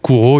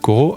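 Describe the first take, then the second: First: The first vowel is an 'oo' sound. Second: The first vowel is an 'oh' sound. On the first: The speaker calls it right. "c'est vrai, c'est Kuro" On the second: The speaker calls it wrong. "Il y en a beaucoup qui se trompent, qui disent euh"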